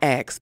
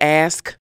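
First: The word is said as 'aks'. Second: The word is said as standard 'ask'. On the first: The speaker calls it wrong. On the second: The speaker calls it right. "I will say ask"

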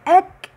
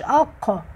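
First: The consonant is a light front k. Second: The consonant is a deep throaty q. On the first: The speaker calls it right. "أك مش أق" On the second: The speaker calls it wrong. "مش أق"

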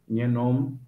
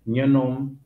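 Both takes have the same delivery.

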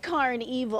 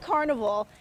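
First: The word is said with its ending emphasized. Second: The word is said plainly, like ordinary carnival. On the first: The speaker calls it right. "I have to put an emphasis on that" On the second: The speaker calls it wrong. "it's not Karnevil"

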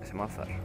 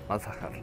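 First: The name is shortened to two syllables. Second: The name is said with all three syllables.

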